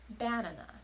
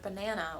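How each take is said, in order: First: The stress is on the first syllable. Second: The stress is on the middle syllable. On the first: The speaker calls it wrong. "putting the stress on the first syllable" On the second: The speaker calls it right. "with the proper stress placement by saying the middle syllable a little bit longer"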